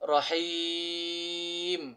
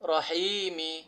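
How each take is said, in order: First: It ends in a consonant, the long vowel stretched. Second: It ends in a short vowel, read quickly. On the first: The reader stops at this word. "ওয়াকফ করিলে তিন আলিফ টানিয়া পড়িতে হয়" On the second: The reading continues without stopping. "হরকতের উচ্চারণ তাড়াতাড়ি পড়িতে হয়"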